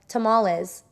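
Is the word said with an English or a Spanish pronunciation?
English. It is said with an English-style pronunciation. The speaker calls it wrong. "it's not just like tamales"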